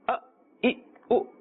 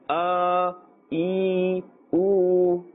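First: Each vowel is cut off short and abruptly. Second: Each vowel is drawn out and lengthened. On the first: "This is the jerking of the sound. This is incorrect" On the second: "we are actually adding another letter"

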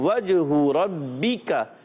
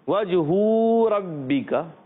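First: The vowel after the h is kept short. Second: The vowel after the h is stretched long. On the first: The speaker calls it right. "حرکات کو بغیر کھینچے بغیر جھٹکا دیے معروف پڑھتے ہیں" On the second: The speaker calls it wrong. "تو ہا کی پیش کو لمبا کر دیا تو غلط ہو جائے گا"

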